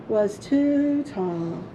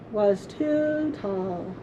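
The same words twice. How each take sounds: The two takes are said the same way.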